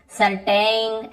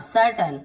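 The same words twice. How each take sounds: First: "सर्टेन" with a long ए, like सर्टेंग; wrong long vowel. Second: "सर्टेन" said as सर्टन, weak last vowel; short अ ending. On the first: Teacher warning against this reading, "सर्टेन" with long -टेन. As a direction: stretch the end of "सर्टेन" into -टेन. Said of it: "ऐसे नहीं पढ़ना है". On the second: Teacher showing the right reading, "सर्टेन" ending -टन. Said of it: "यहाँ पर भी अ". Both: Shown as a demonstration.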